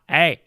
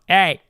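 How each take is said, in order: First: The voice sounds rough, twangy and metallic. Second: The voice sounds smooth and free of roughness. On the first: "a lot of metal" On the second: "Very smooth"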